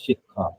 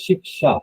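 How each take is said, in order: First: The middle cluster is sounded as kh. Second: The middle cluster is sounded as ksh. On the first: This is the Bengali pronunciation. "But in Bengal, it is shikha" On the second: This is the northern Indian pronunciation. "in northern part of India ... they say shiksha"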